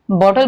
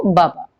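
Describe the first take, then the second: First: Said in the usual way. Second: बाबा for बॉटल, one syllable doubled; बॉटल simplified into babyish doubled बाबा; simplified by repetition. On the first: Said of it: "बॉटल ना बोल करके". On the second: Shown as a demonstration. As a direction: say बाबा, repeating the first syllable. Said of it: "simplifying a word by repeating two syllables".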